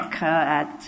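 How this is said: Each letter sound is said separately. This is how a beginner reads the word. "sounding out individual letters and groups of letters. But you don't do that as an experienced reader. You don't say"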